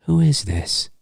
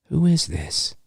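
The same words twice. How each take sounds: First: Soft, faintly menacing repeat; a touch of sinister in an almost normal voice; normal but sinister. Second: Normal but sinister. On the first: Host repeating Ghostface's question with a hint of menace. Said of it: "a hint of sinister". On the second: Host imitating Ghostface asking who this is, softly sinister. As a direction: keep it almost normal, with a touch of threat. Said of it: "It's like". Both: Retold or imitated.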